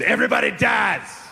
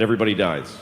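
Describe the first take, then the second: First: Grandfather's blunt shout. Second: Said in the usual way. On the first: Retold or imitated. Grandfather to a seven-year-old at his birthday candles, shouting. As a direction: blurt it out in a raised, high voice. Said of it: "My grandfather told me". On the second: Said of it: "He said".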